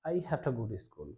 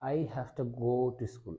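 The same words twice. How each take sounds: First: 'Have to' is said fast, reduced to 'hafta'. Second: 'Have to' is said in full, unhurried.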